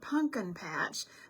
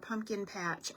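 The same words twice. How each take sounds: First: It is said in a southern American accent. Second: It is said in a plain, neutral accent.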